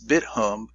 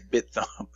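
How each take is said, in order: First: The second part is said like 'hum'. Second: The second part is said like 'thumb'. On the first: The speaker calls it right. "it's BitHum" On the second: The speaker calls it wrong. "I always say BitThumb"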